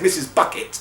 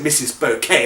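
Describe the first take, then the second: First: The surname sounds like the word bucket. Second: The surname sounds like the word bouquet. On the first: It is the real, plain name. "her real name is" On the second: It is the character's fancy version of her name. "she pronounced it"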